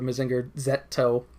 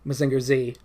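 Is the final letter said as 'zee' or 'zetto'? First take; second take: zetto; zee. First: The final letter is said as 'zetto'. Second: The final letter is said as English 'zee'.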